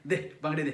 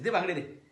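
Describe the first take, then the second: First: Low demand with a menacing laugh. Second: Said in the usual way. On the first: Acted. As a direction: chuckle as you demand it. (हसत हसत धमकावणारी मागणी)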